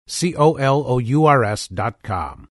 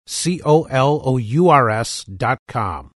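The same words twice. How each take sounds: The two takes are said the same way.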